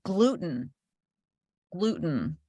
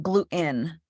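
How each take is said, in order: First: "gluten" with a crisp T; careful glu-ten, as a client correcting; corrective pronunciation. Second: "gluten" with the T swallowed; slow glu'-in with a throat catch; wrong Jersey way. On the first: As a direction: slowly model "gluten", T sounded. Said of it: "And they were like". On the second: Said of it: "not gluten". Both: Retold or imitated.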